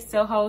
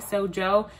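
First: The middle consonant is an h sound. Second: The middle consonant is a j sound. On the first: "Some people say Soho" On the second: "some people say Sojo"

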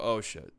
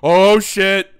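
First: It sounds dismayed and worried. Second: It sounds excited and thrilled.

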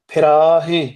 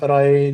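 First: The word ends with a nasalized h-syllable. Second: The word ends plainly, without a nasal h-syllable. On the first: The speaker calls it right. "ਹਾਹੇ ਸਿਹਾਰੀ ਤੇ ਨਾਸਕੀ ਉਚਾਰਨ ਕਰਾਂਗੇ" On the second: The speaker calls it wrong. "ਇਦਾਂ ਪੁੱਠੇ ਸਿੱਧੇ ਉਚਾਰਨ ਕਰਨੇ"

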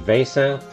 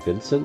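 First: The name has a non-English pronunciation. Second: The name has an English pronunciation.

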